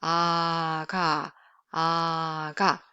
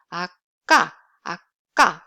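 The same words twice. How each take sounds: First: Long "Ah" gliding into a relaxed "ga"; low, lax "ga" after drawn-out "Ah"; voiced between vowels. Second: "Ah, ga" with short stop before a hard k; tight, punched "ga" after a held stop; unvoiced tense k. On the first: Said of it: "it becomes more like a voice sound". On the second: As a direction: cut "Ah" short, pop "ga" louder. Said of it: "it's on voice sound". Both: Shown as a demonstration.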